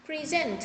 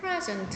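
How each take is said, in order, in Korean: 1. 강세는 두 번째 음절에 있어요. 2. 강세는 첫 번째 음절에 있어요. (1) "강세가 뒤에 있으면 동사지" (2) "강세를 명사는 앞에다 두고 present 하면은 선물이에요"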